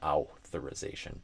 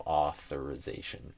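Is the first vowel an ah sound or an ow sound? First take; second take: ow; ah. First: The first vowel glides like an ow sound. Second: The first vowel is an open ah sound. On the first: The speaker calls it wrong. "saying that like ow" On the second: The speaker calls it right. "just say a ah sound. So authorization instead of"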